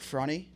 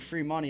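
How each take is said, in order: First: The phrase is squeezed into one short word. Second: The phrase is said in full, two clear words. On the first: "I'll say like frunny or something like that" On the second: "Like instead of saying free money"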